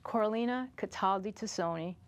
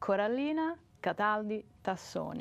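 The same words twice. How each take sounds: First: The name is said with an English accent. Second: The name is said with an Italian accent. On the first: "English, the English version" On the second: "And Italian, the Italian version"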